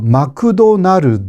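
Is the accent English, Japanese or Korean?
Japanese. It is said with a Japanese accent. The speaker calls it wrong. "마크도날드 이렇게 말합니다"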